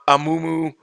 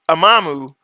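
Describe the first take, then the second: First: The middle syllable is said as 'mu'. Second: The middle syllable is said as 'ma'. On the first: The speaker calls it right. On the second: The speaker calls it wrong.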